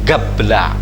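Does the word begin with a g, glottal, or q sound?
g. The word begins with a g sound. "orang Yaman, di mana yang mirip terucap G itu justru Qaf"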